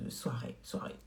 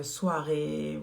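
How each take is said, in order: First: Soirée, soirée whispered softly to herself. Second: Soirée said slow and long; slow drawn-out soirée. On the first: Repeating to viewers it's for evenings, in a whisper. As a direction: breathe soirée, soirée without voice. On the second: Telling viewers the lipstick is for evenings, drawn out slowly. Repeats the word for the evening look. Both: Real, not acted.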